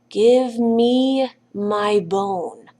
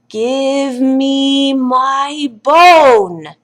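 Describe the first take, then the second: First: It is said at its quietest. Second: It is said the loudest.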